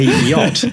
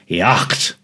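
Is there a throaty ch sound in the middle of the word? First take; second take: no; yes. First: The word has no ch sound inside. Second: The word has a throaty ch sound inside. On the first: This is the word's modern everyday pronunciation. "But we say yacht" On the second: This is the word's older, original pronunciation. "in its original pronunciation, it's yacht"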